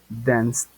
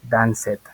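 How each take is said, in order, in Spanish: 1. La terminación no añade ninguna sílaba extra. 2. La terminación se pronuncia como una sílaba extra. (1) "van a decir algo como" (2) "no suena así"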